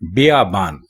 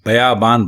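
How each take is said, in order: First: The first vowel is 'i', as in biyaban. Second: The first vowel is 'a', as in bayaban. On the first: The speaker calls it right. "बियाबान आपने सुना होगा" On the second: The speaker calls it wrong. "बे के ऊपर जबर लगा देते हैं जो गलत है"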